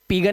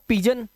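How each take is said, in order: First: The letter g is said as a hard g. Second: The letter g is said as a j. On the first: The speaker calls it wrong. "अब इसे पिगन नहीं पढ़ेंगे" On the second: The speaker calls it right. "जी के आगे ई आ जाएगा अगर तो ये जा हो जाता है"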